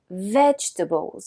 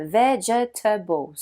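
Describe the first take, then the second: First: Vegetables reduced to three syllables, vej-tuh-bls; native vegetables. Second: Vegetables slowly, ve-ge-ta-bles, all four syllables; every syllable said. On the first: Teacher modelling the native form, reduced. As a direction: vegetables compressed, middle syllable gone. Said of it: "Mais les natifs disent". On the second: Teacher imitating French learners, slow and full. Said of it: "Beaucoup de Français prononcent chaque syllabe". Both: Shown as a demonstration.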